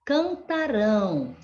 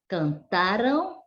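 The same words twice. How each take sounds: First: "cantarão" stressed on final RÃO, falling; stress on last syllable. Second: "cantaram" stressed on TA, tune rising; stress on penultimate syllable. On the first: Teacher contrasting future with past, "cantarão" stressed on RÃO. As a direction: land on a drawn RÃO in "cantarão". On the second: Teacher contrasting past with future, "cantaram" stressed on TA. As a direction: lean on TA in "cantaram", light ending. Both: Shown as a demonstration. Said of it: "O som da pronúncia também, ela deve ser diferente".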